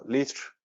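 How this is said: It is said with a British accent.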